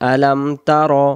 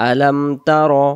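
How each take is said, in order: The two takes are said the same way.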